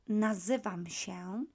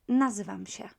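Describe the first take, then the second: First: It is said slowly. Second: It is said quickly.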